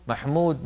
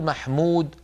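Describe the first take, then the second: First: The vowel is said with fully rounded lips. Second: The vowel is said with relaxed, loosely rounded lips. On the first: "ما نقول مثلا محمود" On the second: "لا نضم شفتينا ضما كاملا"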